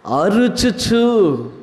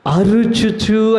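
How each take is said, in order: First: అరుచుచు drawn out syllable by syllable, very slow; stretched slowly. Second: Said in the usual way. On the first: Shown as a demonstration. Preacher teaching the word అరుచుచు, very slow. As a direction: spell out అరుచుచు slowly for the congregation. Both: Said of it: "ఏం చేయొచ్చు?".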